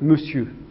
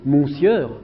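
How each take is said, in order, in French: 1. Il se prononce de sa manière habituelle, irrégulière. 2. Il se prononce lettre par lettre, comme il est écrit. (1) "ces mots ont une prononciation tout à fait irrégulière" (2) "Si vous utilisez une procédure phonologique, vous allez lire"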